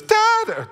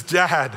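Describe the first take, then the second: First: Put-on a squeaky, far-too-high child's "Dad"; too-high kid voice. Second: "Dad" only lightly raised, a hint of a child; a gentle hint of the hurt boy; lightly high kid voice. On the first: Hurt son calls to dad, in a squeaky, too-high voice. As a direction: overshoot the kid's "Dad" way up high. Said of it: "no, not that high". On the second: Hurt son runs to his father, lightly childlike. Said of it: "high voice".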